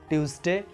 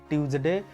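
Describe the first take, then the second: Both takes have the same delivery.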